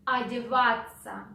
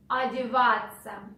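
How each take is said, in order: Both takes have the same delivery.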